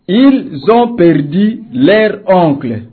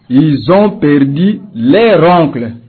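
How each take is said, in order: First: The words are said separately without a liaison. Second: The words are joined with a liaison sound. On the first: The speaker calls it wrong. "C'est normal" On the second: The speaker calls it right. "pour assouplir la phrase, il faut dire"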